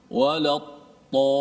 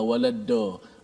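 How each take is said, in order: First: The emphatic letter is said as a plain t. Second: The emphatic letter is said as a thickened d. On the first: "Ada orang sebut dad dengan ta" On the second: "Dia ambil uh, dal yang ditebalkan"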